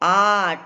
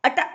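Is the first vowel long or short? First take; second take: long; short. First: The first vowel is long. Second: The first vowel is short. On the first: The speaker calls it right. "ಆಟ ಅಟ ಅನ್ನಲ್ಲ ನಾವು" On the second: The speaker calls it wrong. "ಅಟ ಅನ್ನಲ್ಲ ನಾವು"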